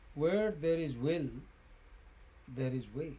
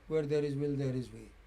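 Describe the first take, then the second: First: It has a clear pause after 'will'. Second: It runs on with no pause after 'will'. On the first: The speaker calls it right. "In standard English, you say" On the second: The speaker calls it wrong. "you do not really say"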